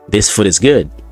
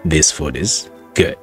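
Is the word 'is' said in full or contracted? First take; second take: contracted; full. First: It is said quickly with 'is' reduced to s. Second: It is said slowly with 'is' in full. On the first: "Asirratti S qofa dhiifanna jechuudha. Ayin achi baddee jirti" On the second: "very slow dha jechuudha akkaataan itti dubbisne"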